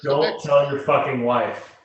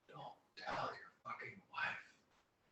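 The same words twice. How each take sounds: First: It is said loudly, out to everyone. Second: It is said quietly, under the breath.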